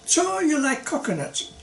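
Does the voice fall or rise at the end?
fall. The voice falls at the end. It is a statement.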